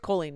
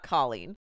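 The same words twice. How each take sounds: First: The first syllable sounds like the word coal. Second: The first syllable sounds like the start of collar. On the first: The speaker calls it right. "like coal, like you're a coal miner" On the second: The speaker calls it wrong. "I know Colleen is the normal pronunciation of that spelling"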